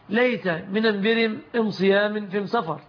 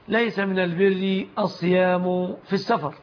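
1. يُنطق حرف التعريف بصوت الميم. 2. يُنطق حرف التعريف بصوت اللام. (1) "يقلبون اللام ميما" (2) "إنما الثابت"

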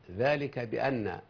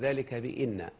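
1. الهمزة بعد 'bi' لها صائت 'a'. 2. الهمزة بعد 'bi' لها صائت 'i'. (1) "إذا دخل حرف الجر على إن تفتح همزتها" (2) "ولا نقول ذلك بإن"

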